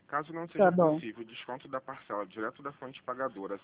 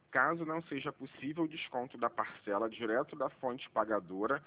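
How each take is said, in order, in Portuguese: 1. É falada em ritmo normal, um pouco mais rápido. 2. É falada em ritmo perceptivelmente mais lento.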